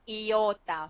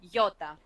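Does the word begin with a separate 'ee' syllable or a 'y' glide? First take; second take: ee syllable; y glide. First: The first vowel is a separate syllable. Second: The first vowel joins into a 'y' glide. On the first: The speaker calls it wrong. "it's not sound very nice to say to uh, to say iota" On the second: The speaker calls it right. "So we join it like yo, iota. So it sounds more uh, natural and more smooth"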